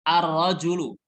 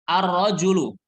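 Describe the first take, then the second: Both takes have the same delivery.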